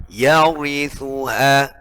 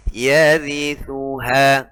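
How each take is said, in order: First: Yarithuha with the ri wrongly heavy; slow yarithuha, thick r; mispronounced yarithuha, heavy ra; too heavy ra. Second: Yarithuha with a light thin r; slow Yarithuha, correct thin r. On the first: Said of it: "itu ketebalan". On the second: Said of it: "Harusnya tipis". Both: Shown as a demonstration.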